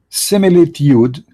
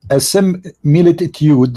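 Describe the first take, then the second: First: It is said at normal speed. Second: It is said very slowly.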